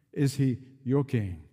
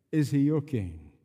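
The two takes are said the same way.

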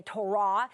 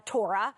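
First: Torah with the accent moved onto its last syllable; stress on second syllable. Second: Said in the usual way. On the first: Shown as a demonstration. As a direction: say Torah as to-RAH, as in Judaism. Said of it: "with the accent on the second syllable". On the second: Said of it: "It's the way we would say".

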